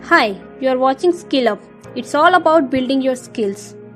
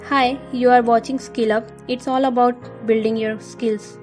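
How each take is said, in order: First: It is said lively, with rising and falling pitch. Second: It is said flatly, with little pitch variation. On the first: The speaker calls it right. "जो उतार चढ़ाव लाए बोलने में" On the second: The speaker calls it wrong. "ये था मेरा पहला तरीका।"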